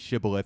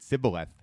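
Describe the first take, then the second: First: The word begins with an 'sh' sound. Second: The word begins with an 's' sound. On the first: The speaker calls it right. "now say shibboleth" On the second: The speaker calls it wrong. "he could not frame to pronounce it right"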